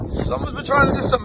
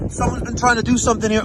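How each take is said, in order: First: High squeaky mocking repeat; mocking falsetto. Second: Said in the usual way. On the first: Real, not acted. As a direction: echo the line in a silly high voice. Mocking high repeat of own line.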